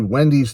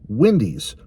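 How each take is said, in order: First: It is said with the vowel of tendies. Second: It is said with a Midwestern vowel, unlike tendies. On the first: "so it has to be Wendy's tendies" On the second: "my Midwest accent ... wants to say it Wendy's"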